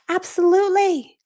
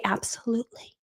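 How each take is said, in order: First: "Absolutely" higher, slow and sing-song; gushing professional. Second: Low-key absolutely. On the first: Mom answering a CEO with slow, high, polished "Absolutely". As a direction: stretch out "Absolutely" brightly to sound polished. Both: Retold or imitated. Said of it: "Act like this is normal".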